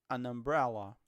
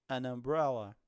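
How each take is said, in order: Both takes have the same delivery.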